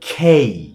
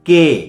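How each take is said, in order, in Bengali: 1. K ধ্বনিতে শ্বাসের ফুঁ আছে। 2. K ধ্বনিতে কোনো শ্বাসের ফুঁ নেই। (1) "খয়ের মতো হবে, একটু ভেতর থেকে আসবে।" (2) "সো দ্যাটস রং প্রনাউন্সিয়েশন।"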